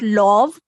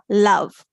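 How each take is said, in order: First: The vowel is not a short 'uh' sound. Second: The vowel is a short 'uh' sound. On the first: The speaker calls it wrong. "It's not love" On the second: The speaker calls it right. "O is saying the a sound, the short vowel U sound"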